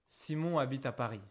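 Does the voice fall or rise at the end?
falls. The voice falls at the end. It is a statement of information.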